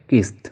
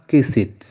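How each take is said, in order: First: The ending is a plain t sound. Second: The ending is a separate extra syllable. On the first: The speaker calls it right. "waaye kist" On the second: The speaker calls it wrong. "kenn du wax kisit"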